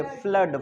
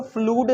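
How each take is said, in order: First: "फ्लड" with a short uh vowel; correct short vowel. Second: "फ्लूड" with a long oo vowel; wrong oo reading. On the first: Teacher giving the correct reading, "फ्लड" with short uh. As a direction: say "फ्लड" rhyming with "blood". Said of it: "इसको फ्लूड नहीं पढ़ेंगे, फ्लड". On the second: Teacher warning against a misreading, "फ्लूड" with long oo. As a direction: say "फ्लूड" rhyming with "food". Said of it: "इसको फ्लूड नहीं पढ़ेंगे". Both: Shown as a demonstration.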